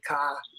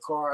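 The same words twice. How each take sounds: First: The final R is dropped. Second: The final R is clearly pronounced.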